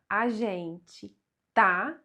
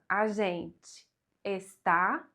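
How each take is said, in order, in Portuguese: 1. O verbo é encurtado para tá. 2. O verbo é pronunciado por inteiro, como está.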